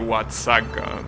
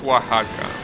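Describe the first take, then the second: First: It is read with English letter sounds. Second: It is read with Spanish letter sounds. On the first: The speaker calls it wrong. "if you read it in English, will be" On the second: The speaker calls it right. "but you know, it's pronounced"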